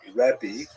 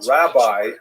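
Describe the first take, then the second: First: It is said the old Hebrew way. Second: It is said the English way. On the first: This is how the title was said in late antiquity. The speaker calls it right. "that's the actual pronunciation" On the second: This is how the title came down in English. The speaker calls it wrong. "with that pronunciation, it's actually kind of nonsensical in Hebrew"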